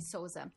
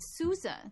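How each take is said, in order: First: The name has a Portuguese-style pronunciation. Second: The name has an English-style pronunciation. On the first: The speaker calls it right. "he's of Portuguese descent, so I'm just going to say Sousa" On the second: The speaker calls it wrong. "why is it Sousa?"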